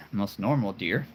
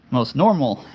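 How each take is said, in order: First: Said in the usual way. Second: "normal" punched louder and higher; stress on normal. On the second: Pretend. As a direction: hit "most normal" hard and louder.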